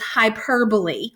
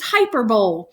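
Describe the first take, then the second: First: The word is said with its standard pronunciation. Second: The word is sounded out just as it is spelled. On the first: The speaker calls it right. "The way that you pronounce this figurative language is hyperbole" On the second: The speaker calls it wrong. "even though that's exactly what it looks like"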